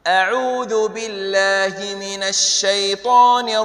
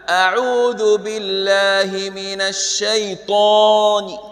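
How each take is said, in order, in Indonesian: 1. Vokalnya dibaca pendek, tidak dipanjangkan. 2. Vokal dibaca panjang.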